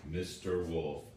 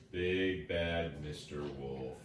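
First: Said in the usual way. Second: Drawn out, each word weighted; slow menacing build on big bad; slow ominous naming. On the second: A narrator's reading. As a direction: savour every word like a warning. Narrator repeats villain's name ominously.

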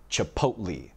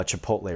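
First: Chipotle said slowly as chi-POAT-lee; imitating dad's chipotle, chi-POAT-lee; dad's mispronunciation. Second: Said in the usual way. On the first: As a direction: end chipotle in "lee" instead of "lay". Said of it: "My dad also pronounces most Mexican dishes incorrectly". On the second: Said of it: "but he kept saying chipotle".

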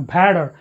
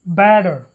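First: "better" turned into "petter"; wrong aspirated B. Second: "Better" with a voiced B, no puff; unaspirated B. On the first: Teacher shows students the mistake, "better" said as "petter". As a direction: puff a P in place of the B of "better". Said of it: "because bo is never aspirated". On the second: Teacher models the rule, voiced B in "Better". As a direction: start "Better" on a voiced, unpopped B. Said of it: "Bo is never aspirated". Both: Shown as a demonstration.

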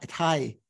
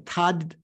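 First: "Tai" rhyming with tie, no d; Tibetan pronunciation. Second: "Tad" as tahd, d sounded; full d pronunciation. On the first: Teacher showing the changed syllable, Tibetan pronunciation. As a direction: drop the d, say "Tai" with a gliding vowel. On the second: Teacher showing the unchanged syllable, d sounded. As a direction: close "Tad" on an audible d. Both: Shown as a demonstration. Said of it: "instead of saying Tad".

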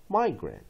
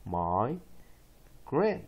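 First: Said in the usual way. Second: Syllable by syllable. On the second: Shown as a demonstration. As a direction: break it into "my" and "grant" for learners. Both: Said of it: "再一遍".

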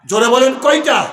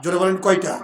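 First: Loud call to the crowd for an answer; rallying shout. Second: Said in the usual way. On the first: Real, not acted. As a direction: shout the question to rouse a response. আবার জোরে সাড়া চাইছেন. (জোরে হাঁক দিয়ে প্রশ্ন)

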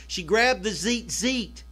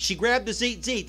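First: Slow emphatic repeat. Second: Said in the usual way. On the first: Shown as a demonstration. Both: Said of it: "That's the Greek word for coils".

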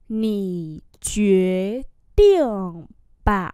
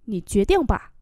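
First: Slow, long separated syllables; syllable-by-syllable demo; slow model reading. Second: Said in the usual way. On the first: Shown as a demonstration. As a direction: stretch "Nǐ quyết định bà" out for learners. Same phrase drawn out for learners.

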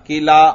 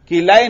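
First: किला ending in a pure long "aa"; correct reading किला. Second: किलाए ending in an "ay" glide; wrong reading किलाए. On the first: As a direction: say किला without any final "ay" glide. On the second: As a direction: turn the final "aa" of किलाए into "ay". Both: Shown as a demonstration. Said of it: "किलाए नहीं पढ़ना".

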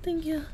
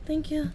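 Both takes have the same delivery.

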